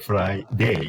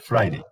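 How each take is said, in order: First: The last syllable is a long, full diphthong. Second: The last syllable is short and reduced. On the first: The speaker calls it wrong. "you don't say Friday" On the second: The speaker calls it right. "So that becomes shorter"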